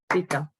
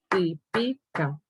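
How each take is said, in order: First: The stress is on the first syllable. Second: The stress is on the second syllable. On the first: "es esa muchacha típica" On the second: "Si la palabra fuera grave sería típica"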